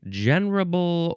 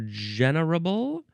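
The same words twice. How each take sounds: First: The word is said with three syllables. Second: The word is said with four syllables. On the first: "three or four syllables" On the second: "three or four syllables"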